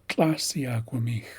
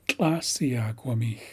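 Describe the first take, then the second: Both takes have the same delivery.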